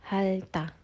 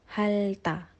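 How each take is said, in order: Both takes have the same delivery.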